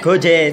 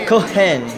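First: The middle consonant is a hard g sound. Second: The middle consonant is an h sound. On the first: This is how it is said back home. "We pronounce it as" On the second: This is how locals here say it. "But here, they pronounce it as Kohen"

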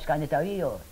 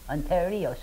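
First: The word begins with an sk sound. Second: The word begins with an on sound. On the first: The speaker calls it right. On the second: The speaker calls it wrong.

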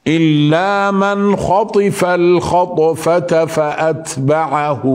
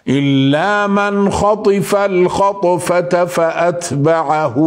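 No difference in how they are said.

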